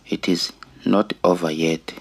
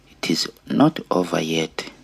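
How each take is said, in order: Both takes have the same delivery.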